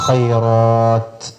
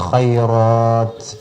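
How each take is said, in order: Both takes have the same delivery.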